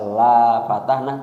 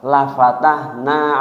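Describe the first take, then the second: First: The vowel of the first syllable is long. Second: The vowel of the first syllable is short. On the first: We will not open it. The speaker calls it wrong. "tidak kami buka" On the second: We will surely open it. The speaker calls it right. "Lamnya harus dibaca pendek"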